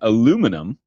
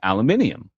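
First: It is said with four syllables, American style. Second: It is said with five syllables, British style. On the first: This is the form mocked in Britain. "I got made fun of when I went over there for saying aluminum" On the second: This is the form used in Britain. "it's aluminium over there"

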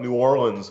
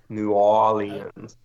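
First: The R in Orleans is clearly pronounced. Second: The R in Orleans is skipped over. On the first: This is how outsiders say the name. The speaker calls it wrong. "I always thought New Orleans was the way you said it" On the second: This is how locals say the name. The speaker calls it right. "So you sort of skip over the R"

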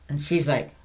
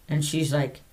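No difference in how they are said.

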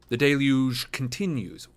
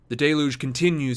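First: Deluge blends two pronunciations into one word. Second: Deluge is said with one clean pronunciation. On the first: The speaker calls it wrong. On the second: The speaker calls it right.

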